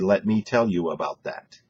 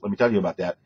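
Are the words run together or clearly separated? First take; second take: clearly separated; run together. First: Each word is clearly separated from the next. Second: The words run together and are hard to distinguish. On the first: The speaker calls it right. "than when you say" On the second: The speaker calls it wrong. "It's a lot harder to distinguish that"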